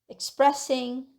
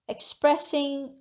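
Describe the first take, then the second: The two takes are said the same way.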